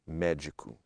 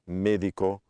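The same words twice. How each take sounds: First: The stressed vowel has the Portuguese e sound. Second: The stressed vowel has the Spanish e sound. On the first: "in Portuguese it sounds e" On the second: "in Spanish it sounds e"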